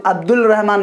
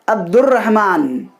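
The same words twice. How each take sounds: First: अब्दुल रहमान with the ल sounded before र; wrong pronunciation. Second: अब्दुर्रहमान with no ल and a doubled र; correct pronunciation. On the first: Teacher showing students the mistake to avoid, wrong pronunciation. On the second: Teacher giving students the correct version, correct pronunciation. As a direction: say अब्दुर्रहमान right, the ल silent and the र doubled. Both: Shown as a demonstration. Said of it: "अब्दुल रहमान नहीं".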